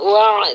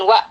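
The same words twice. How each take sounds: First: The voice flows slightly through the final sound. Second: The voice stops abruptly on the final sound. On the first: The speaker calls it right. "kita alirkan sedikit suara kita" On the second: The speaker calls it wrong. "jangan sidah ya, jangan wa"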